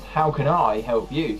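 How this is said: The stress falls on the word I. It is personal and almost sarcastic. "if you put the emphasis on I"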